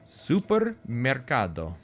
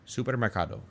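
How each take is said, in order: First: It is said with an Italian accent. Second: It is said without an Italian accent.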